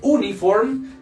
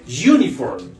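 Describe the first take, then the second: First: The word begins with a plain vowel sound. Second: The word begins with a y sound. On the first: The speaker calls it wrong. "Esto no se dice uniform" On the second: The speaker calls it right. "se dice uniform. ¿Listo? Uniform. Como si fuera y"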